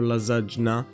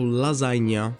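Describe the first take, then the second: First: The middle sound is not like Spanish ñ. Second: The middle sound is like Spanish ñ. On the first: The speaker calls it wrong. "it's not lasagna" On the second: The speaker calls it right. "Ñ is like the Spanish and with a little thing on the top"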